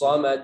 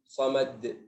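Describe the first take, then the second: First: It is forceful, ending in a glottal catch. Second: It is gentle, ending softly without a catch. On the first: The speaker calls it wrong. "Coba kuatkan gini. ... itu dia hamzah keluar terakhir" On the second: The speaker calls it right. "untuk menghindari itu pelan"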